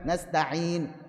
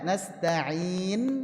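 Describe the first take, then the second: First: The lips round at the same time as the final n. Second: The final n is held, then the lips round. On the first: The speaker calls it wrong. "bareng dengan sukunnya" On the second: The speaker calls it right. "sukunkan dulu baru monyong"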